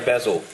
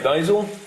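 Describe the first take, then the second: First: It is said with a non-American pronunciation. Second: It is said with an American pronunciation. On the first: This is how it was taught in the speaker's school. "we say basil" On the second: This is how Americans say it. "the Americans say basil"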